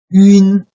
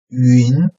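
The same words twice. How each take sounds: First: The pitch stays high and level. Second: The pitch rises from mid to high.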